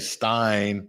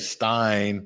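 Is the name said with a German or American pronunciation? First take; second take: American; American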